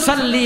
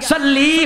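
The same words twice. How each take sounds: First: The final vowel is short, not drawn out. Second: The final vowel is long and drawn out. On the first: It addresses a man. The speaker calls it right. "পুরুষ হলো সাল্লি, মুযাক্কারের সিগা" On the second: It addresses a woman. The speaker calls it wrong. "সিগায় আমার টান দিলে মহিলা হয়ে যাইব"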